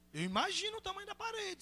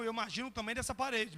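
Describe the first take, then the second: First: Hushed high swoop of mock amazement; high-pitched wonder. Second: Said in the usual way. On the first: Real, not acted. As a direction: marvel quietly in a lifted voice. Marked repeat of the remark.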